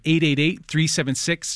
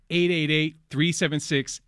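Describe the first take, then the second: First: The number is read at a quicker pace. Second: The number is read at a slower pace.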